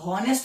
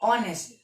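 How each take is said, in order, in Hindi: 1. यह साफ़ h की आवाज़ से शुरू होता है। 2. यह स्वर से शुरू होता है, h की आवाज़ नहीं। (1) "अब हॉनेस्ट तो नहीं पढ़ते" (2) "एच साइलेंट होता है, ओ से बोलते हो"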